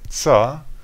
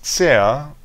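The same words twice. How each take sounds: First: The prefix is said quickly and reduced. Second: The prefix is said slowly and fully.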